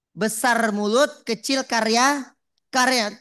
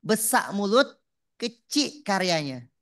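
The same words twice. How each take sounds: First: Louder, with "karya" hammered home twice; emphatic repeat. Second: Besar mulut, kecil karyanya spoken slowly and evenly, like dictating a note; slow dictation. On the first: Preacher repeating the maxim to the crowd, louder and punchy. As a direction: drive the maxim in hard, louder. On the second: Preacher spelling out a maxim for the audience to note, slow. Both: Shown as a demonstration.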